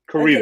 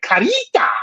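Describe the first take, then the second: First: It is said plainly, with no foreign flavor. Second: It is said in an exaggerated Spanish way.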